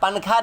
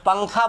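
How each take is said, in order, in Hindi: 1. n की ध्वनि साफ़ और पूरी तरह बोली जाती है। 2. n की ध्वनि नाक में छिपी रहती है। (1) "पंखा नहीं बोलते हैं। पंखा बोलेंगे वो इजहार हो जाएगा" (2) "तो पंखा बोलते हैं"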